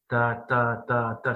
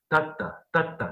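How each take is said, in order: First: All four syllables have the same even strength. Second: Strong and weak syllables alternate in turn. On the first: There is no rhythm, only sameness. "c'est pas un rythme" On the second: There is a rhythm made by alternation. "ça c'est un rythme"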